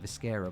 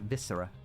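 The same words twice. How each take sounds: First: The word rhymes with mascara. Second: The word does not rhyme with mascara. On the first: "Like mascara" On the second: "I usually call it Viscera"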